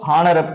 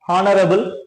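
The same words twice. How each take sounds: First: The word starts with a vowel, no h. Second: The word starts with an audible h sound. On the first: The speaker calls it right. "So you should use the next next letter O" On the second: The speaker calls it wrong. "That is obviously wrong. You should not pronounce word H"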